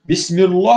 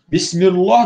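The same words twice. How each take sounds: First: The l sound in Allah is thick and heavy. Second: The l sound in Allah is thick and heavy.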